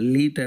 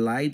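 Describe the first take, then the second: First: The vowel sounds like ee. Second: The vowel sounds like eye. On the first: The speaker calls it wrong. "లీట్ అంటలేం" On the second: The speaker calls it right. "లైట్ అంటున్నాం"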